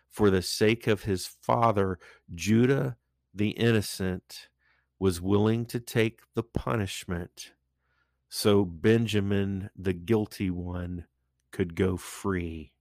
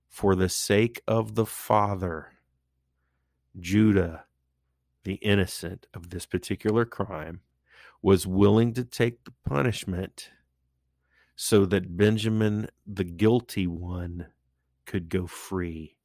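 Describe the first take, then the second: First: It is said at a normal pace. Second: It is said slowly.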